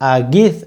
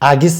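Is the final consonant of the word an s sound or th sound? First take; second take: th; s. First: The final consonant is a th sound. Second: The final consonant is a plain s sound. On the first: The speaker calls it right. "ওটা হচ্ছে থার্টি আছে না" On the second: The speaker calls it wrong. "আগিস আগিস বলবেন না"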